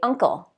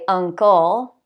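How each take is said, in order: First: The stress is on the first syllable. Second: The stress is on the second syllable. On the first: The speaker calls it right. "I say uncle" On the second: The speaker calls it wrong. "I don't say uncle"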